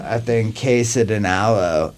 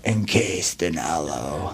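First: Said in the usual way. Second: Lower, softer and slow, like a doom song title; half-joking dark metal growl, drawn out. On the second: Pretend.

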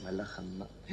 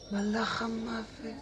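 First: Low, hushed echo; stunned. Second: High, slow, drawn-out wonder; awestruck. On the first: Patient learning he faces the Angel of Death, stunned. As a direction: let it sink in under your breath. Realises who the stranger is. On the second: Patient recognising the Angel of Death, awestruck. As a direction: stretch out the dawning realisation. Awed repeat on realising. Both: Acted.

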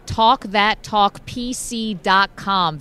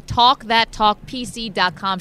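First: Slow, punchy plug of the website; ad read. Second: Slow, steady repeat of the web address; ad read. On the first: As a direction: spell out the web address deliberately. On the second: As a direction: say the site clearly once more. Repeated plug of website. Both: Acted.

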